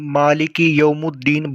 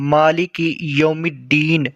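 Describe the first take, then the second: First: The vowel before 'ddeen' is a u. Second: The vowel before 'ddeen' is an i. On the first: The speaker calls it wrong. "पेश लगाकर ... जो कि सरासर गलत है" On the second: The speaker calls it right. "मीम के नीचे ज़ेर आता है"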